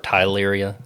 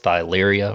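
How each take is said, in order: First: The word begins with a plain 't' sound. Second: The word begins with a 'th' sound. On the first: Other people say it this way. "I've heard others say it like tyleria" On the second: The speaker follows the spelling. "I say thyleria because it's spelled with a T H"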